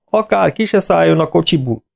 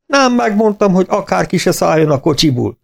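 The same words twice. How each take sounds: First: A little higher, heavy and grave, stress on se; grim warning. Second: Much higher, grinning, playful triumph; spring the joke on the vet with a big grin; gleeful teasing. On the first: Farmer to the vet, grimly: Akár ki se szálljon a kocsiból. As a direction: warn the vet off like bad news is coming. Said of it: "Arca komor volt". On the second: Farmer teasing the vet after the calves recover, gleeful. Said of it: "vidám vigyorban nyílt". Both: A narrator's reading.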